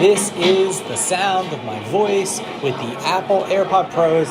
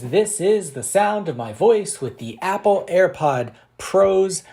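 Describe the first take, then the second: First: The voice is heard over restaurant background noise. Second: The voice is heard without background noise.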